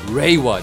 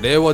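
First: The word is said with English pronunciation. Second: The word is said with Japanese pronunciation.

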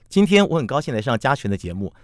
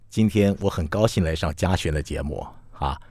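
First: It is spoken at a medium pitch. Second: It is spoken at a low pitch.

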